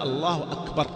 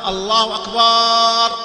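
First: The last vowel of akbar is kept short. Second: The last vowel of akbar is lengthened. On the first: It states that God is greatest. The speaker calls it right. "قل الله أكبر" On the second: It names the sound of a drum. The speaker calls it wrong. "أكبر هو صوت الطبل"

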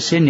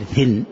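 First: The word begins with an s sound. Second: The word begins with a th sound. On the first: The speaker calls it right. "ما يقول سن" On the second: The speaker calls it wrong. "يقول ثن"

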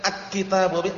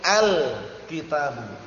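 First: The l sound is dropped before kitabu. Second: The l sound is clearly pronounced before kitabu. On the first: The speaker calls it wrong. "jangan bacanya dengan akitabu" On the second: The speaker calls it right. "al-nya dibaca jelas, gamblang"

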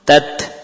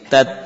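First: The final t is released with a hiss. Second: The final t stops abruptly without a hiss. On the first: "Memunculkan desis setelah melepaskan ujung lidah dari pangkal gigi" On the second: "Suara berhenti"

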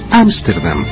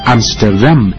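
First: The stress is on the first syllable. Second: The stress is on the last syllable. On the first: This is the Spanish pronunciation. "en tanto que en español es Ámsterdam" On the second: This is the Dutch pronunciation. "en holandés, se pronuncia con el acento sobre la última sílaba"

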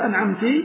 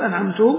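First: The word ends with an i vowel. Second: The word ends with a u vowel. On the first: God is addressed with a feminine pronoun. "أو كسرها فيقول أنعمت" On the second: The reciter is the one who bestowed favor. "كضم التاء من أنعمت فيقول أنعمت"

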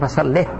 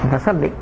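First: The word ends with a final h sound. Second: The word ends with a long ee vowel. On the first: The speaker calls it right. "يجب الوقف بها السكت" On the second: The speaker calls it wrong. "لا يجوز أن يقوم فصلي"

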